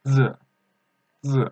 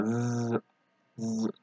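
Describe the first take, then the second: First: Short isolated "z", tongue ready as for "the"; pronunciation demo. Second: "z" as a long, soft buzz; wrong pronunciation demo. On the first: Teacher models the pinyin sound, careful short "z". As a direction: give "z" as one brief buzzed syllable. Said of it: "it makes sound like that". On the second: Teacher shows what learners must avoid, drawn-out buzzing "z". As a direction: hold "z" like a drawn-out zzz. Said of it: "This you can't pronounce like that". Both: Shown as a demonstration.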